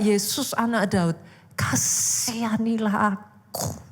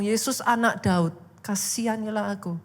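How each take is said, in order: First: Strained, drawn-out plea without real shouting; imitated desperate cry. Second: Said in the usual way. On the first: Bartimaeus calling to Jesus after being chased away, imitated desperate cry. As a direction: stretch out KASIHANILAH AKU as a heartfelt retold cry. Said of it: "dia tetap teriak". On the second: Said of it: "dia tetap ngomong".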